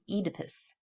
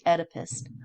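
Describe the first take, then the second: First: The name is said the British way. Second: The name is said the American way. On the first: "most British people will say Oedipus" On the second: "I and most Americans will say Oedipus"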